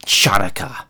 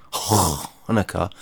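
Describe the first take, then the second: First: "Chanukah" started with a throaty kh sound, CHAH-noo-kah; guttural ch Chanukah. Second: "Hanukkah" with a plain h, HAH-nuh-kah, sighed and drawn out slowly; resigned, slow "Hanukkah" with an English h. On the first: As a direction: say "Chanukah" with a harsh throat-clearing kh at the front. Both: Shown as a demonstration. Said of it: "which I guess is pronounced Hanukkah".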